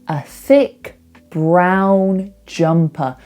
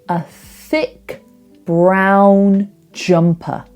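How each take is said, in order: The two takes are said the same way.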